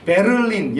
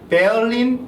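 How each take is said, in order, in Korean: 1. r은 별도의 음절로 분명하게 발음됩니다. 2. r은 모음과 비슷한 소리로 약하게 바뀝니다. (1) "한국 사람들이 그 R자를 이렇게 이런 를, 를, 를 이런 발음으로 넣어서 베를린 이렇게 발음을 하는데" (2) "사실 베얼린, 뭐 벌린 이런 식으로 발음이 되고요"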